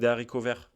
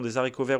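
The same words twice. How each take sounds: First: No z sound links des to haricots. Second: A z sound links des to haricots.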